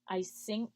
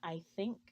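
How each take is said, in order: First: The word begins with an S sound. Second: The word begins with a TH sound. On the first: The speaker calls it wrong. "Russian native speakers will typically substitute an S sound in for words with the T H" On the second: The speaker calls it right. "and not"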